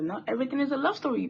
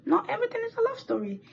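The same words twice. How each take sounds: First: Fast offhand "not everything is a love story"; quick dismissal. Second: Much higher, fast sing-song "Not everything is a love story"; high mock scolding. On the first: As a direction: brush it off quickly. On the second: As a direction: lecture the viewers in a high teasing voice. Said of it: "but not everything is a love story". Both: Shown as a demonstration.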